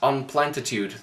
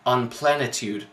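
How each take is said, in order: First: The middle T sound is clearly pronounced. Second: The middle T sound is left out. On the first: The speaker calls it right. "There is a T in the middle of your own made up word" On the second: The speaker calls it wrong. "he pronounces it as unplenitude"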